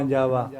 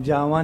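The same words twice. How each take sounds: First: ਜਾਵਾ said correctly, ending falling; ਜਾਵਾ spoken the right way, with the proper final vowel; ਜਾਵਾ in its correct recited form; correct pronunciation. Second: ਜਾਵਾ said the wrong way, as the incorrect form; ਜਾਵਾ pronounced as the mistaken reading to avoid; ਜਾਵਾ in its wrong, uncorrected form; wrong pronunciation. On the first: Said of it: "ਜਾਵਾ ਬੋਲਣਾ". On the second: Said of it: "ਜਾਵਾ ਨਹੀਂ ਕਹਿਣਾ". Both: Shown as a demonstration.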